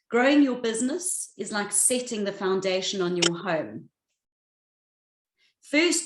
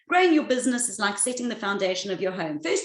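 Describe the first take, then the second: First: It is said with long pauses between phrases. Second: It is said quickly without pauses.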